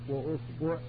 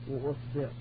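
Both takes have the same delivery.

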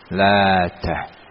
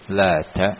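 First: The t sound is doubled and held longer. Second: The t sound is short and single. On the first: This is an alternative reading. "Ada juga yang membacanya dengan tasdid" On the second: This is the reading of the majority. "Ada yang dibaca tanpa ditasdid"

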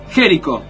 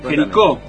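First: The stress is not on the final syllable. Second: The stress is on the final syllable.

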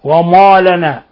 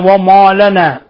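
No difference in how they are said.

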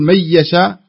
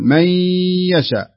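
First: The nasal sound is held only briefly. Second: The nasal sound is held noticeably longer. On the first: The speaker calls it wrong. "بدل ما تقول من يشاء" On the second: The speaker calls it right. "تعطيها حركتين بس تزيد عليها شوي"

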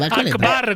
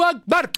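First: The word ends on a high final note. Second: The word ends without a high final note. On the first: "come con una specie di acuto finale" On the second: "lo pronunciano in un altro modo"

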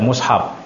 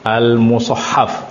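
First: The word is said short, in two syllables. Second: The word is said long, in three syllables. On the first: The speaker calls it wrong. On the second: The speaker calls it right.

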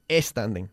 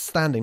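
First: A vowel sound is added before the S. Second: The word begins directly with the S sound. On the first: The speaker calls it wrong. "no standing" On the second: The speaker calls it right. "Las S's. Standing"

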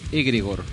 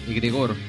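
First: The stress is on the first syllable. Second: The stress is on the second syllable.

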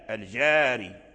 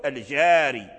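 First: The long vowel is fully open, like ah. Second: The same.

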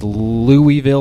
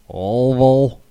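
First: The first part sounds like 'Looey'. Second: The first part does not sound like 'Looey'.

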